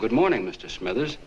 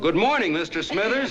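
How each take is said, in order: First: It is said at a normal, quieter volume. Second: It is yelled very loudly.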